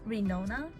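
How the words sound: The name is said with English sounds. The speaker calls it right. "actually better to say in an English way"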